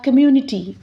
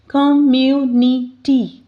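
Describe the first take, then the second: First: Said in the usual way. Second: 'Community.' said slowly as com-mu-ni-ty; slowly split into syllables. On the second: Shown as a demonstration. Teacher counting syllables for students, slowly sounding out 'Community.'. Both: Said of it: "four syllables in this word".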